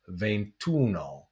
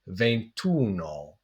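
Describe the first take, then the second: First: The final vowel of venti is dropped. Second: The final vowel of venti is dropped.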